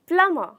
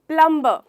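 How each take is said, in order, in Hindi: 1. m के बाद b की आवाज़ सुनाई नहीं देती। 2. m के बाद b की आवाज़ सुनाई देती है। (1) "हम इसे कहते हैं प्लमर" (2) "ये मैंने हमेशा लोगों को बोलते हुए सुना है"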